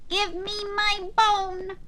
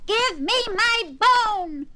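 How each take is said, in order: First: It is said in a quiet voice. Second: It is said loudest of all.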